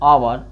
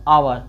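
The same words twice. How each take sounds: No difference in how they are said.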